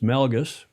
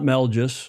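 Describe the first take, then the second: First: The g is a hard g sound. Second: The g is soft, like a j sound. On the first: The speaker calls it right. "It's Melgus" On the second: The speaker calls it wrong. "It's not Melgus like a J"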